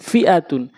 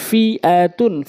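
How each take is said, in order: First: Short vowels, syllables run together; quick reading. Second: Drawn-out syllable by syllable reading; slow demo. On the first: Teacher showing how it must be read, quickly. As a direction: read it briskly as one word. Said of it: "দ্রুতটা উচ্চারণ করতে হবে". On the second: Teacher speaking so learners can follow, slowly. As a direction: stretch each syllable for learners. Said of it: "slow বলছি এই জন্য". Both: Shown as a demonstration.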